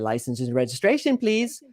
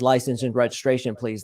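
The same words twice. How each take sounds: First: The voice rises at the end. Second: The voice falls at the end. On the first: It sounds unsure and seeking approval. The speaker calls it wrong. "he doesn't say" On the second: It signals authority. The speaker calls it right. "That telegraphs authority"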